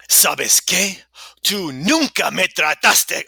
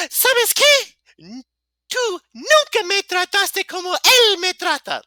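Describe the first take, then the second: First: Put-on loud, higher dramatic voice, short of girlish; wrong voice. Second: Put-on very high falsetto girl, loud and indignant. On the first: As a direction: act it out forcefully in your own voice. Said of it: "I'm in the wrong voice". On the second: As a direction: squeal it out as an exaggerated girl. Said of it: "Girl voice on".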